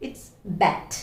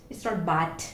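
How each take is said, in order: First: "bat" with a clear æ and a firm ending; correct vowel. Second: "bat" with an open Malayali a; wrong vowel. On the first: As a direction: model the right "bat". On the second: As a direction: say "bat" the way learners tend to. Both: Shown as a demonstration.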